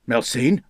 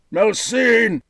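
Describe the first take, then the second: First: Sharp call across the courtyard; calling sharply. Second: Much higher, louder roar of anguish. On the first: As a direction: snap the name out as a call. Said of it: "Eckenroy called sharply". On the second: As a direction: howl the name in pain. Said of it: "he roared in anguish". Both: A narrator's reading.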